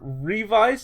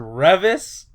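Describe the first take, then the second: First: The name does not rhyme with crevice. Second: The name rhymes with crevice. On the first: "I've heard Revise" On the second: "like crevice. And that one doesn't sound good"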